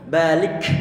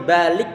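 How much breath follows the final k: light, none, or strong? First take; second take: strong; none. First: The final k releases a strong, forceful burst. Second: The final k stops with no breath released. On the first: "jangan sampai kenceng-kenceng" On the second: "Dibuat berhenti, berhenti suara suaranya"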